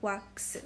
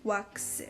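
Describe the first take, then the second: First: It is said with Korean sounds. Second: The same.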